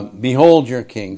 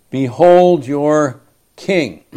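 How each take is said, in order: First: Understated sarcastic jab; dry mock presentation. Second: Slow, louder mock proclamation of the king; slow proclaimed sarcasm. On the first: Pilate jeering the Jews, mildly sarcastic. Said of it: "Pilate's being sarcastic". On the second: Pilate mocking the crowd, slow sarcastic proclamation. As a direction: Pilate sneering as he presents him. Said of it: "Pilate has to be speaking sarcastically".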